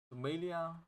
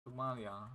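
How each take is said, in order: First: "Somalia" with MAY in the middle, raised pitch; questioning pronunciation. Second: "Somalia" with MAH in the middle; settled pronunciation. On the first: Speaker unsure of the English name, "Somalia" as so-MAY-lia. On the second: Speaker unsure of the English name, "Somalia" as so-MAH-lia. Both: Real, not acted. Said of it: "know how you say it in English".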